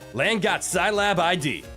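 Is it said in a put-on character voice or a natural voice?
natural voice. It is said in the speaker's own voice.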